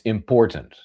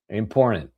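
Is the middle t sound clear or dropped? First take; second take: clear; dropped. First: The middle t sound is clearly pronounced. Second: The middle t is dropped, like 'imporn'. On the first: The speaker calls it right. "It's important" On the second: The speaker calls it wrong. "like it's spelled I M P O R N"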